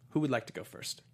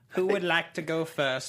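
First: Said in the usual way. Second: Slow, booming movie trailer voice. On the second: Shown as a demonstration. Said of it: "let's do our action movie tagline".

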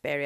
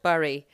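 First: Bury said like "berry"; local pronunciation. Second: Bury said as it is spelt, like "burry"; spelling pronunciation. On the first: Podcaster tells listeners how the town is pronounced, Bury as "berry". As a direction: say Bury to rhyme with merry. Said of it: "but it's pronounced Bury". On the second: Podcaster shows listeners how the town is spelt, Bury as "burry". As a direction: say Bury to rhyme with hurry. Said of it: "It's spelt Bury". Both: Shown as a demonstration.

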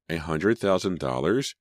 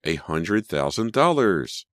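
First: Dazed question, rising at the end; murmured disbelief. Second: Slow, high, louder amazement; drawn-out astonishment, falling at the end; awed exclamation. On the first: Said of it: "she murmured again". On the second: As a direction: stretch it out and swell on DOLLARS. Repeats the sum in amazement. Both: A narrator's reading.

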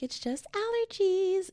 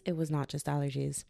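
First: Very high, drawn-out singsong; mock dismissive. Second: Said in the usual way. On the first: Podcaster mocking own earlier self-diagnosis, airy high-pitched denial. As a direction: stretch it out high, poking fun at yourself.

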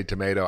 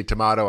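First: Tomato said as tuh-MAY-toh; long AY in the middle of tomato; American pronunciation. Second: Tomato said as tuh-MAH-toh; British-style pronunciation. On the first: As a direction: say tomato with the vowel of day. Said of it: "I say tomato". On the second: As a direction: open AH in the middle of tomato. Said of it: "it's like you say tomato". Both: Shown as a demonstration.

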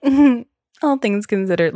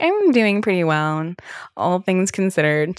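First: Louder, higher knowing "Mm-hmm, all things considered" with falling end; knowing therapist echo. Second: Said in the usual way. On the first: Retold or imitated. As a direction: echo "all things considered" back, pointedly, like a therapist who sees through it. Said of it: "She was like". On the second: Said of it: "And I'm like".

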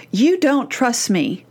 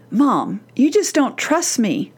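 First: Slow, emphatic stress on "You don't trust me". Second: Put-on a drawn-out teen protest to mom; voiced teen complaint. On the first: Acted. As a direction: draw out "You don't trust me", weighting each word. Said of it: "or just an emphatic". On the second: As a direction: complain slowly, lightly acting the teen. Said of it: "Has your teen ever said to you".

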